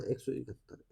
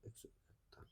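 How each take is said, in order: First: Much softer, muttered answer. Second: Fading, breathless whisper; whispered echo. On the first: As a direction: say it quietly to yourself. Teacher states the answer. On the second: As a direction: let the repeat vanish into a whisper. Teacher repeats answer to himself. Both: Real, not acted.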